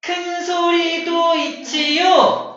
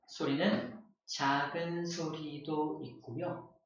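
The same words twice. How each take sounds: First: Louder, higher and slow. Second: Much softer and slow. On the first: Teacher demos a loud sound, loud and slow. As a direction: boom it out big. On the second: Teacher demos a quiet sound, soft and slow. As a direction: say it small and quiet. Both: Shown as a demonstration. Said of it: "음량이 커지기도 하고 작아지기도".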